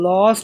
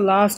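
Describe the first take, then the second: First: The vowel is a rounded 'aw' sound. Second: The vowel is an open 'ah' sound. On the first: The speaker calls it wrong. "লস্ট বলছি না" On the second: The speaker calls it right. "লাস্ট বলছি"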